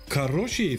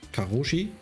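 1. Der Name wird mit russisch klingendem Akzent ausgesprochen. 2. Der Name wird mit einem schlichten deutschen Akzent ausgesprochen.

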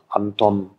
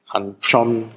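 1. Die Konsonanten sind normal, nicht weich. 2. Die Konsonanten sind palatalisiert, klingen weicher.

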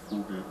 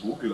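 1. Das V ist hart, wie ein F. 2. Das V ist weich, wie ein W. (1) "Das heißt auch Vogel" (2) "du sprichst auch nicht Vogel aus"

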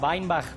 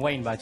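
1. El nombre se pronuncia a la manera alemana. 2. El nombre se pronuncia a la manera española. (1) "En realidad es alemán, se pronuncia Weinbach" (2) "pero le damos con Weinbach acá"

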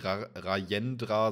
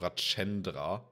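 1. Der Konsonant nach 'Ra' ist kein tsch. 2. Der Konsonant nach 'Ra' ist ein tsch. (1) "das wird nicht Rajendra" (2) "sondern mit so einem Tsch ausgesprochen"

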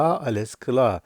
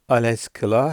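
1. Ses, bildirme cümlesi gibi sonda alçalır. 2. Ses, soru gibi sonda yükselir. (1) "hem de cevap olabiliyor" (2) "bunun vurgusunu farklı yaparak soru olarak da sorabilirsiniz"

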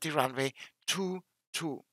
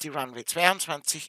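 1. Die Zahl wird Ziffer für Ziffer gelesen. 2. Die Zahl wird als eine ganze Zahl gelesen. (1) "immer Ziffer für Ziffer" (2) "niemals in durchgelesenen Zahlen"

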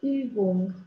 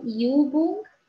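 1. Prima vocală este un singur 'ü' rotunjit. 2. Prima vocală este un glide, 'ee-oo'. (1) "ci Über și Übung" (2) "să nu citim IU, deci nu Über și nu Übung"

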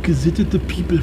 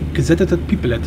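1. Der Satz wird mit deutschem Akzent gesprochen. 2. Der Satz wird mit amerikanischem Akzent gesprochen.

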